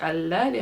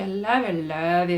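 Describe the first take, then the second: First: Said in the usual way. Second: Mock-swooning, gushing I love you; hammed-up lovesick gush. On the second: Giselle gushing his love to R D in a hammed-up swoon. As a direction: overdo the repeated I love you like a besotted lover. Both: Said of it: "He, like, confesses his love".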